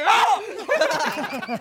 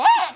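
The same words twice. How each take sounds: First: Loud, raised answering yell; re-enacted own scream. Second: Very high, very loud shriek; imitated friend's scream. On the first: Driver retelling how he screamed too, re-enacted yell. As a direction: act out screaming right back, loudly. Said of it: "yo también grité". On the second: Retelling his friend's panic in the car, imitated shriek. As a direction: mimic a sudden piercing scream. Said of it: "Cuando dijo".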